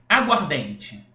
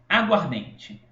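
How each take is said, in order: Both takes have the same delivery.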